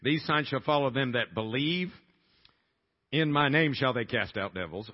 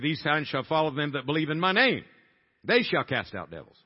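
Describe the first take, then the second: First: The pause comes before "in my name". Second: The pause comes after "in my name".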